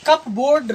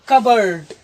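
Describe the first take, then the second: First: The p is sounded, like cup plus board. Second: The p is silent, said as kubberd. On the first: The speaker calls it wrong. "न पढ़ करके" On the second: The speaker calls it right. "इसे पढ़ेंगे हम"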